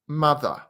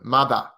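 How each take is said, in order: First: It ends without an R, in a British way. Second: It ends in a very open vowel, no R. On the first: "And British is a bit more" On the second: "Australian is very open"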